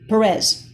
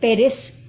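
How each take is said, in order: First: The name is said with an anglicized pronunciation. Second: The name is said with a Spanish pronunciation. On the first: This is how others commonly mispronounce the name. The speaker calls it wrong. "they people would say" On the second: This is how the name should be said. The speaker calls it right.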